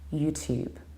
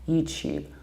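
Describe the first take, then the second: First: A small y sound follows the t. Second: The t sounds like ch. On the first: "insert a teeny tiny yod there" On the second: "palatalize it"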